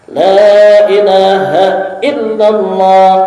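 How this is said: It is said forcefully, with spirit.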